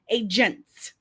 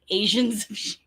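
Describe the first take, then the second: First: The word is pronounced crisply with a clear 'g'. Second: The word is slurred, sounding like 'Asians'. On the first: The speaker calls it right. "There, is that better?" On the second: The speaker calls it wrong. "It's just my Midwestern accent"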